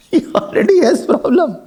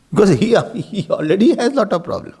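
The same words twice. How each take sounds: First: Repeated through a light laugh. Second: Said in the usual way. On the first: Real, not acted. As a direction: chuckle as you repeat the punchline.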